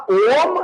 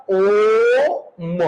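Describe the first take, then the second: First: Said in the usual way. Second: ओम with the ओ held very long before the म; लंबा ओ. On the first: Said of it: "इस ओ के पीछे एक और ओ". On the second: Shown as a demonstration. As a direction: stretch the ओ in ओम well past a normal vowel. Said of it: "एक और ओ लगाना पड़ेगा". (ओम में ओ को बहुत लंबा खींचकर)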